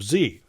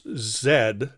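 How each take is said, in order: First: The letter is said the American way. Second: The letter is said the British way. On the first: "instead of Z" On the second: "the British pronounce Z"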